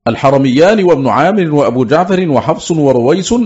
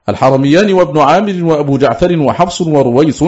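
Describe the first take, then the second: No difference in how they are said.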